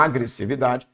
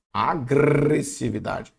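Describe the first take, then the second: First: Said in the usual way. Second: Slow "Agressividade" with a long rolled R; exaggerated G-R cluster. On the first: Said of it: "Tá aqui, ó". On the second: Shown as a demonstration. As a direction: trill the "gr" in "Agressividade". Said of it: "encontro consonantal".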